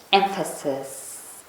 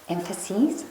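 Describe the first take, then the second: First: Said in the usual way. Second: "emphases" with a long "-eez" ending, as a question; "emphases" ending in "seez", questioningly; unsure plural ending. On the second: Real, not acted. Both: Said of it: "What is the English?".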